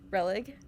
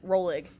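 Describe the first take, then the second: First: The first syllable is said without an O vowel. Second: The first syllable is said with an O vowel. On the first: The speaker calls it right. "silent O" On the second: The speaker calls it wrong. "They said Rolig. That ain't right"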